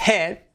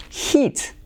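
First: Head, short clipped e; head, e as in bet; head sounds like e. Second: Heat, high, long ee; heat, long ee vowel. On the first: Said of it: "Suena a E". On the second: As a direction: stretch the i in heat. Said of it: "eso es una I". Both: Shown as a demonstration.

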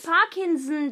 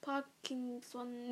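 First: Parkinson with the last O dropped, "-sn"; loud corrective Parkinson ending in "-sn"; silent final O. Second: Parkinson with the O sounded at the end; slow, soft Parkinson with a full "-son"; mispronounced ending. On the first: Shown as a demonstration. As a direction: model Parkinson firmly, swallowing the final O. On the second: Real, not acted. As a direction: say Parkinson hesitantly, pronouncing the final O. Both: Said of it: "das O wird nicht gesprochen hinten".

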